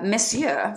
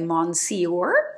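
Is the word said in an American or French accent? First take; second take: French; American. First: It is said with a French pronunciation. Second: It is said with an American pronunciation.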